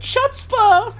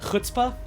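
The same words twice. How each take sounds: First: It begins with a 'ch' sound as in chair. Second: It begins with a rasping back-of-throat sound. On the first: The speaker calls it wrong. "For years I've been calling it chutzpah. That's not right" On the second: The speaker calls it right. "it's pronounced like chutzpah"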